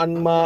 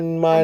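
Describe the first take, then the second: No difference in how they are said.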